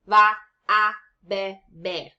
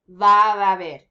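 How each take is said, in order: First: The words are split apart with small gaps. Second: The words run together in one smooth flow. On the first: The speaker calls it wrong. "you don't need to split this up" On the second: The speaker calls it right. "you just say it in one fluid motion"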